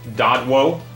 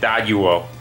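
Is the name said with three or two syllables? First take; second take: two; three. First: The name is said with two syllables. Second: The name is said with three syllables. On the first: The speaker calls it wrong. "I guess that's not how you say it" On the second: The speaker calls it right. "That's how you say it"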